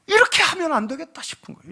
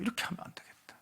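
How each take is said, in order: First: Said in the usual way. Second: Hushed whisper of inner realization; whispered to himself. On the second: Retold or imitated. Preacher repeats his realization to the congregation as a whisper. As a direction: breathe it out as a private thought.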